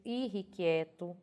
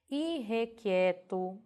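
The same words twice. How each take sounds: First: "irrequieto" with RRI, "i-rri-qui-e-to"; popular pronunciation. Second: "Irrequieto" slowly, with E in "rre"; careful spelling pronunciation. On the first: Teacher quoting how people say "irrequieto", with RRI. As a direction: turn the E after RR in "irrequieto" into I. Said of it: "as pessoas pronunciam do tipo". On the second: Teacher presenting the written form, "Irrequieto" with RRE. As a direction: stretch out "Irrequieto" as i-RRE-qui-e-to. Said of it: "e é grafada". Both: Shown as a demonstration.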